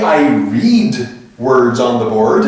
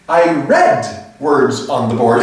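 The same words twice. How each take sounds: First: The word read sounds like reed. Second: The word read sounds like red. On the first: It describes an action happening now. The speaker calls it wrong. "you wouldn't say, ... that's what you're doing right now" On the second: It describes an action in the past. The speaker calls it right. "You would say"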